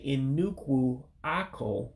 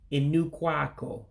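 First: The first word keeps its final vowel. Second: The first word's final vowel is dropped. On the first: The speaker calls it wrong. "you wouldn't say Nnukwu-Akwo, those are the root words" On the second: The speaker calls it right. "you drop that last U, so it becomes"

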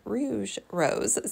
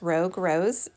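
First: The first word ends in a soft zh sound. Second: The first word ends in a hard g sound. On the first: Someone else said it this way. "somebody pronounced it Rouge Rose" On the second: This is how the speaker has always said it. "I've always been pronouncing this Rogue Rose"

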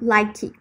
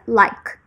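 First: The word ends with an added vowel after k. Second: The word ends sharply on the k sound. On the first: The speaker calls it wrong. "não like" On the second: The speaker calls it right. "o som vai parar ali no K"

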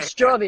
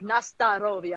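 First: The st and r run together without a vowel. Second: A vowel separates the st from the r. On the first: The speaker calls it wrong. "a lot of people mispronounce Nastarovia. As" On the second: The speaker calls it right. "I was saying it wrong, but it's like Nastarovia"

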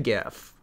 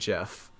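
First: The word begins with a hard G sound. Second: The word begins with a J sound. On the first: The speaker calls it right. "I say GIF" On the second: The speaker calls it wrong. "GIF is peanut butter"

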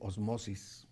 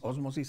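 First: The stress is on the second syllable. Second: The stress is on the first syllable. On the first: "también se puede decir osmosis" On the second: "yo siempre dije ósmosis"

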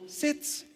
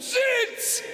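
First: The command is said quietly and calmly. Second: The command is said loudly and forcefully. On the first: "sagt ganz ruhig" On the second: "Der ist doch nicht taub"

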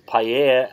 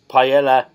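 First: The word is pronounced the Spanish way. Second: The word is pronounced the English way. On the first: The speaker calls it right. "it's paella, and that's the Spanish word for it" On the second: The speaker calls it wrong. "paella is not paella"

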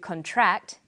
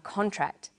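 First: The stress is on the second syllable. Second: The stress is on the first syllable. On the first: It is a verb. "to contract" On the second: It is a noun. "a contract"

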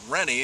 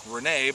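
First: The name is pronounced as Rennie. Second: The name is pronounced as Renee. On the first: This is how the owner says it. The speaker calls it right. "he pronounces it Rennie" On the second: This is how the spelling looks. The speaker calls it wrong. "that would look like Renee"

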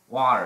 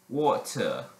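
First: It is said in an American accent. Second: It is said in a British accent. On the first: "that's American" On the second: "British may say"

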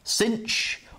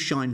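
First: The word is said as 'cinch', rhyming with pinch. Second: The word is said as 'shine', rhyming with fine. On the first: "your teacher might use cinch" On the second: "let's go with shine first"

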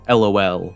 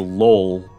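First: It is said as three separate letters. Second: It is said as one single word. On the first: "Do you say each individual letter like LOL" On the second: "like saying it like it's a word"

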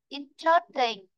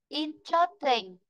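Both takes have the same delivery.

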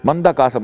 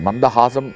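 First: The middle consonant is a hard k sound. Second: The middle consonant is a soft h sound. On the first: The speaker calls it wrong. "சிலர் மந்தஹாசத்தை மந்த காசமாக்கி சொல்லுகிறார்கள்" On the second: The speaker calls it right. "மந்தஹாசம் என்கின்ற வார்த்தையை"

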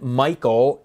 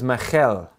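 First: The middle consonant is a plain k sound. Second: The middle consonant is a rough throaty rasp. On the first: The speaker calls it wrong. "it wasn't Michael" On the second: The speaker calls it right. "it was Michal"

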